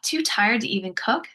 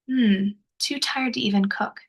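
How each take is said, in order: First: It sounds scoffing and dismissive. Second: It sounds gentle and sympathetic.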